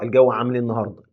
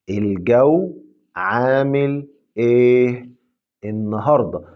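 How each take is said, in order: First: The question is said quickly with linked words. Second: The question is said slowly and clearly.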